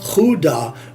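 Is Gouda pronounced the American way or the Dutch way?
Dutch. The word has a Dutch-style pronunciation. The speaker calls it right. "probably like Gouda would be a, a more uh, traditional uh, pronunciation"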